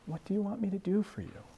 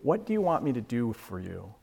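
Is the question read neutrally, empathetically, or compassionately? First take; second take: compassionately; neutrally. First: It is read with overtones of compassion. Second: It is read in a plain, neutral way.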